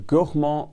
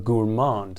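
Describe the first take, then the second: First: It is said with a French pronunciation. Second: It is said with an American English pronunciation. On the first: "the native French pronunciation" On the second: "the American pronunciation"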